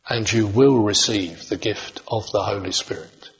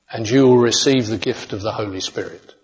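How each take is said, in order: First: It is read more slowly. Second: It is read at a normal pace.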